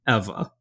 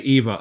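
First: The first E is said with a soft sound. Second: The first E is said hard, not soft. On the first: "He pronounces it with the soft E" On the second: "He doesn't say Eva under fire"

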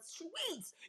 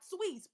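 First: The word is stretched out with strong feeling. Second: The word is said quickly and plainly. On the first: The speaker calls it right. "but sweets" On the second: The speaker calls it wrong. "Not sweets"

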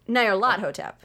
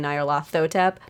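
First: The name is said in an Egyptian-based way. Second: The name is said in the common way. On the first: The speaker calls it right. "it is Egyptian-based, and that is how you would pronounce it" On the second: The speaker calls it wrong. "A lot of people say Nyarlathotep"

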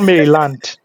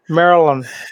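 First: It is said the Lagos way. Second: It is said the American local way. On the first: It names the area in Lagos. The speaker calls it wrong. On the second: It names the US state next to Washington, D.C. The speaker calls it right.

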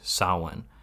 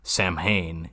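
First: The word is said the native Irish way. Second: The word is read out as English spelling. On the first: The speaker calls it right. "he pronounces the word correctly" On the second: The speaker calls it wrong. "looks at that word written on a chalkboard and is like"

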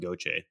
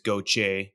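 First: The name is said in a plain everyday style. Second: The name is said in a South Louisiana style. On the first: "if I introduce myself, I just say" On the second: "if you're in South Louisiana"

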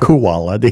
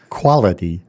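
First: The first syllable sounds like 'koala'. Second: The first syllable has the usual 'qual' sound. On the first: The speaker calls it wrong. "Is that relative to the koala bear" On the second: The speaker calls it right. "Quality, not quality"

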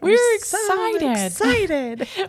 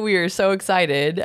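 First: It is said in a lively, excited voice. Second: It is said in a flat, low-energy voice. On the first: The speaker calls it right. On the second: The speaker calls it wrong.

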